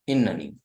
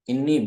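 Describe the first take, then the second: First: It has an extra n syllable, three syllables. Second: It has no extra n syllable, two syllables. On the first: "विद नूने विकाया" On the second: "विदाउट नूने विकाया"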